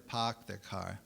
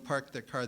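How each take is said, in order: First: It is said in a Maine accent. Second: It is said in a standard American accent.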